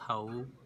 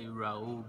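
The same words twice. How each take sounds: First: The name is said with a Portuguese pronunciation. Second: The name is said with an English pronunciation. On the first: The speaker calls it right. "the right uh, pronunciation is Raul. That's how we say in Portuguese" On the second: The speaker calls it wrong. "everybody say Raul"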